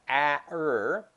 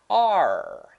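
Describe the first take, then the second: First: Two separate sounds are said one after another. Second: One smooth blended sound is said. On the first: The speaker calls it wrong. "it doesn't sound like A-er" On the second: The speaker calls it right. "Instead, it sounds like R"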